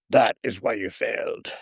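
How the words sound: It is said in a Yoda voice.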